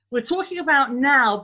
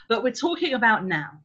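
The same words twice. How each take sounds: First: "about now" said louder and higher, pressing the point; emphatic repeat. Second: Said in the usual way. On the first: Shown as a demonstration. Teacher to parents, insisting they mean the present, emphatic. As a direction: lean hard into "about now" to drive it home.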